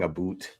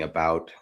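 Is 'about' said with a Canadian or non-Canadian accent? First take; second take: Canadian; non-Canadian. First: The vowel has a Canadian accent sound. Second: The vowel has a non-Canadian accent sound. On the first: This is how the guide should have said it. The speaker calls it right. "He wasn't saying about" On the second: This is how the guide actually said it. The speaker calls it wrong. "the guy didn't sound Canadian"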